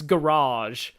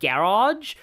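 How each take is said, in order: First: It is said in an American accent. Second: It is said in an Australian accent. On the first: "and in the U S, it's garage" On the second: "Australians say, say like garage"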